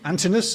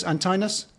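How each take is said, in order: First: Antinous with short i, an-TIN-us; pronunciation check. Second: Antinous with long i, an-TINE-us; pronunciation check. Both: Shown as a demonstration. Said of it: "Did I pronounce that correctly?".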